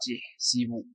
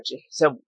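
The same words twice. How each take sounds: First: تحسب with "i" in both syllables; quiet "tihsibu" for تحسب; disallowed double kasra. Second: تحسب with "i" then "a"; "ti-" prefix and "-sa-" in تحسب; permitted analogical form. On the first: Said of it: "فلا يجوز فيها أن تقول". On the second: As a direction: say تحسب as "tihsabu". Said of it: "وإنما يجوز في قياسها أن تقول". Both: Shown as a demonstration.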